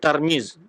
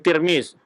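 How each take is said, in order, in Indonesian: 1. Suku kata pertama memiliki vokal 'a'. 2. Suku kata pertama memiliki vokal 'i'. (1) "bi fathi ta al-munqathah" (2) "bi kasriha"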